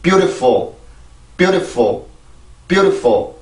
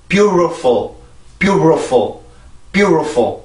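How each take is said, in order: First: "beautiful" as byoo-de-fo, T weakened to a tap; flapped T. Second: "beautiful" as byoo-ro-fo, with an English R. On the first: Teacher repeating the weakened-T drill, flapped T. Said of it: "다시 한번". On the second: Teacher demonstrating other instructors' mistaken method, T as R. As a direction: replace the T in "beautiful" with an R, tongue off the palate. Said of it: "R 발음 형식으로 해주면 된대요". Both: Shown as a demonstration.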